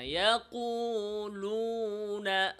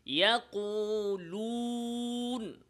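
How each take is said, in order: First: ইয়াকুলুনা slow, higher, lips relaxed; correct relaxed lips. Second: ইয়াকুলুন slow, higher, lips tense; wrong, lips pressed. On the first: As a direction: say ইয়াকুলুনা without lip pressure. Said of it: "বলেন". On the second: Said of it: "যেমন". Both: Shown as a demonstration.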